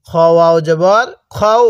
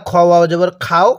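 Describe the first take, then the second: First: Slow spelling, "খও" with a rounded o after kh; correct rounded vowel. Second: "খাও" with an open aa after the kh; wrong vowel. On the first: Teacher models the right reading, slow, "খও" with rounded o. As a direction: draw it out slowly to "খও", kho-u, not khaa-o. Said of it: "তাহলে কিভাবে পড়তে হবে?". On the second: Teacher shows what many misread, "খাও" with open aa. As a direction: end the spelling on "খাও" as khaa-o, the common mistake. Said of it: "পড়াটা সহি শুদ্ধ হবে না". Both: Shown as a demonstration.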